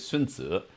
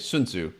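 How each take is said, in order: First: The name has a Chinese pronunciation. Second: The name has an English pronunciation. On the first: "in Chinese, you would say" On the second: "in Western English, you would say"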